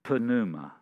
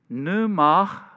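First: The word starts with an audible P sound. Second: The word starts with no P sound. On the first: "maybe they pronounced the P. In other words, it would be pneuma" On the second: "it's a silent P on it"

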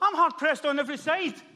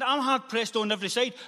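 First: It is said in a confident, triumphant tone. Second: It is said in a despairing, defeated tone. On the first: Hope remains despite the trouble. The speaker calls it right. "He goes, no" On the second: The trouble feels unbearable. The speaker calls it wrong. "He didn't say, I can't believe this is happening"

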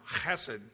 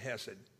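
First: The word begins with a rasping throat sound. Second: The word begins with a plain h sound. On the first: "or they would say it with that" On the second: "I just say hesed"

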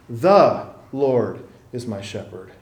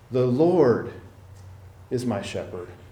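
First: The stress falls on 'the'. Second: The stress falls on 'Lord'.

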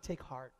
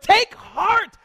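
First: It is said flatly, without much feeling. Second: It is said with strong passion and energy. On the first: It is a mild, casual reassurance. The speaker calls it wrong. "I doubt Jesus said" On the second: It is a deeply felt, urgent encouragement. The speaker calls it right. "I bet you he said it with a lot of passion"

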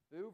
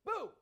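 First: The word is said plainly, without force. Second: The word is said loudly, with strong force. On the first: "If I said boo" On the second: "boo with an exclamation mark"

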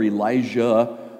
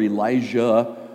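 First: The name is pronounced in an old Hebrew way. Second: The same.

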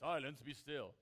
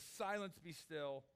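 First: It is said in a booming, put-on God voice. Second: It is said plainly, in a normal voice.

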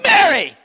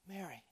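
First: It is said in an impatient, exasperated tone. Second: It is said in a tender, loving tone.

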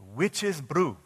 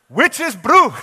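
First: It is said at normal volume. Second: It is said loudly.

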